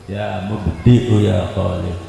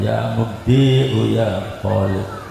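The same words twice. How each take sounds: First: The vowel in mubdi'u is kept short. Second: The vowel in mubdi'u is drawn out long. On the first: The speaker calls it right. "makanya dibacanya pendek" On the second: The speaker calls it wrong. "bukan ya mubdi'u ya Khalid"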